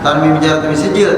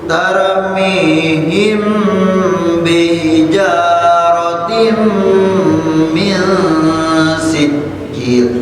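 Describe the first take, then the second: First: The m before b is cut short, not held. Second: The m before b is held with nasal sound. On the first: The speaker calls it wrong. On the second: The speaker calls it right. "Nah ini banyak ditahan"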